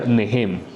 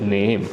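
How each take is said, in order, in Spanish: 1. La palabra se pronuncia con sonidos ingleses. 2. La palabra se pronuncia con sonidos españoles. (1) "En inglés se pronunciaría" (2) "realmente en español se pronuncia"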